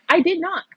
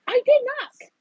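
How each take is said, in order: First: "did" pressed hard, higher and louder; defensive protest, "did" stressed; insistent. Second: "did" pushed even higher in a squeaky laughing protest; high-pitched defensive repeat; squeaky insistence. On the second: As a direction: plead your innocence, voice cracking up on "did". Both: Real, not acted.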